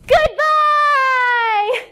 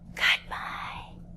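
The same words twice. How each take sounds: First: It is said very loudly. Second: It is said very quietly.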